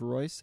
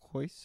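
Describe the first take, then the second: First: The name begins with an R sound. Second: The name begins with an H sound. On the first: "instead of Royce" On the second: "you pronounce it like an H"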